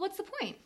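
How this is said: It sounds like a genuine, curious question. The speaker really wants to know the purpose. "where you put the emphasis in the question"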